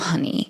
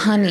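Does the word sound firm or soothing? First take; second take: soothing; firm. First: It is said in a soft, placating tone. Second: It is said in a firm, direct tone. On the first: The speaker just wants to appease you. The speaker calls it wrong. "that tone of voice isn't like" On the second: The speaker truly cares and is being honest. The speaker calls it right. "there's a firmness to it"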